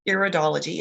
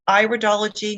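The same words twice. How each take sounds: First: The first syllable sounds like 'ear'. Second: The first syllable sounds like 'eye', as in iris. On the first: The speaker calls it wrong. "not iridology. It's not your ear we're studying" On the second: The speaker calls it right. "it is pronounced iridology ... it's the iris"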